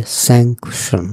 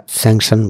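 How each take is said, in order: First: স্যাংশন as "sank-shon", with a k sound; careful pronunciation. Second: স্যাংশন as "sang-shan", no k sound; common pronunciation. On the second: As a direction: say স্যাংশন without a k before the "sh". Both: Shown as a demonstration. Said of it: "উচ্চারণটা একটু খেয়াল করতে হবে".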